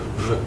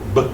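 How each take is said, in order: First: It is a soft, non-plosive v sound. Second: It is a hard, plosive b sound. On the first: The letter has no dot in it. "If it has no dot, it's a soft B, which would be a v" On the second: The letter has a dot in it. "if it has a dot in it, then it's a hard B"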